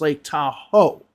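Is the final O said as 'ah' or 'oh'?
oh. The final O is said like 'oh'. The speaker calls it right. "when it's Lake Tahoe"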